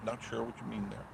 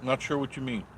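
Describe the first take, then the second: First: Much softer, musing to himself; quiet repeat. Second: Said in the usual way. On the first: Real, not acted. Repeating the viewer's line to himself, softly. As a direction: say it again under his breath.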